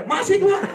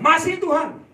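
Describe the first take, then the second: First: High, loud "Masih, Tuhan", grudging and laughing; reply to God half-annoyed, half-laughing; annoyed answer. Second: High, loud reply of "Masih, Tuhan"; loud answer to God. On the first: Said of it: "Saya jengkel sekali". (jengkel sambil tertawa, suara tinggi dan keras) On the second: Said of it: "Saya bilang". (jawaban lantang dan tinggi kepada Tuhan) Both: Retold or imitated.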